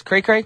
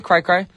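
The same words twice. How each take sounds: First: "Cray Cray" with the vowel of "day". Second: "Cry Cry" with the vowel of "eye". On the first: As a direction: question "Cray Cray", both words rhyming with "day". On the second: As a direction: question "Cry Cry", both words rhyming with "eye". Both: Shown as a demonstration. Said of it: "the script confused me".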